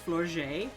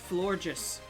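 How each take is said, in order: First: The ending does not sound like gorgeous. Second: The ending sounds like the word gorgeous. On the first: The speaker calls it wrong. "I have been pronouncing this Pokemon ... as Florges. But it's not" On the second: The speaker calls it right. "it's pronounced Florges ... like the word gorgeous"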